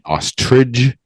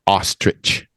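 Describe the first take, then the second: First: The word ends with a soft 'j' sound. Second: The word ends with a 'ch' sound. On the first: The speaker calls it wrong. "that's how I grew up saying it" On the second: The speaker calls it right. "It's ch"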